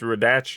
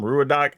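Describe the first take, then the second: First: The name ends with a ch sound. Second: The name ends with a plain k sound.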